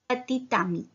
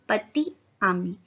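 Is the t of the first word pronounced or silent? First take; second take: pronounced; silent. First: The t is pronounced and linked to the next word. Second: The t of the first word is silent. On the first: "इसको प्रोनाउंस करेंगे टी को" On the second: "पतित नहीं बोला था मैंने, पति बोला था, टी साइलेंट था"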